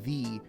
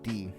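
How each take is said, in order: First: It begins with a clearly enunciated th sound. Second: It begins with a d sound, Irish style. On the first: "instead of saying the with enunciation" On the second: "you say d"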